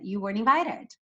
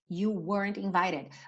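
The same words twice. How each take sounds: First: It is said fast with weren't barely heard. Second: It is said slowly and clearly.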